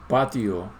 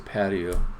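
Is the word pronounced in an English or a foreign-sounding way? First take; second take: foreign; English. First: The word is pronounced with a foreign-sounding accent. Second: The word is pronounced with a plain English accent. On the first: The speaker calls it wrong. "I don't say patio" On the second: The speaker calls it right. "I say patio"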